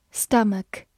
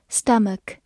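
The two takes are said the same way.

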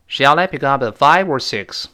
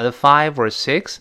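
First: "five" raised, "six" dropped to close the choice; falling intonation. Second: "five" and "six" both lifted, leaving the choice open; rising intonation. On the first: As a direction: finish with a firm fall on "six". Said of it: "如果我们是降调". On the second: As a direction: end "six" on a polite upward tune. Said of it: "如果是升调的话". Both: Shown as a demonstration.

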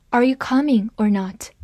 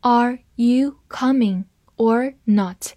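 First: Said in the usual way. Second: Slow, careful read-through; deliberate slow model sentence. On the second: Shown as a demonstration. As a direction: read it slowly for the class. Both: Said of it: "好，慢慢来读。".

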